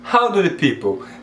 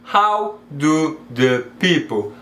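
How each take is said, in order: First: The words run together smoothly without breaks. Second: Each word is said separately with small breaks. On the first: The speaker calls it right. "Perceba como fica mais natural" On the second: The speaker calls it wrong. "do que how do the people"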